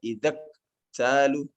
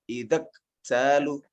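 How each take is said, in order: Both takes have the same delivery.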